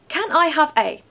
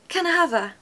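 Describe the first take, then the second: First: Each word is said separately in a robotic way. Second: The words are run together into one smooth word. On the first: The speaker calls it wrong. "I sound like an actual robot" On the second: The speaker calls it right. "almost sounds like an exotic country or an island"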